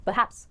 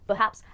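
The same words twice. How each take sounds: The two takes are said the same way.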